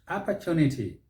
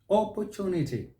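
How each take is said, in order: First: It is said with an American accent. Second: It is said with a British accent. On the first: "The Americans will say opportunity" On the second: "That's the British style"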